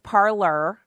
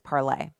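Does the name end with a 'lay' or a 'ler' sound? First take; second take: ler; lay. First: The name ends with an 'er' sound. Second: The name ends with an 'ay' sound. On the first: It is said this way to show the spelling. The speaker calls it wrong. "I'm pronouncing it that way so you can know how to spell it" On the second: It is said the intended way. The speaker calls it right. "the correct pronunciation is Parlay"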